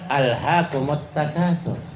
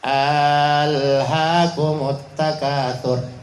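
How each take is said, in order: First: The vowel after 'h' is kept short. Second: The vowel after 'h' is drawn out long. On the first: It states that worldly gain has distracted you. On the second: It asks whether worldly gain has distracted you.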